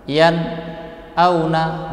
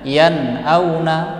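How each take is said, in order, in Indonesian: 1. Ada jeda singkat setelah yan. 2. Alirannya langsung berlanjut tanpa jeda. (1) "berhenti seperti itu" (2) "Akan tetapi membacanya yan auna"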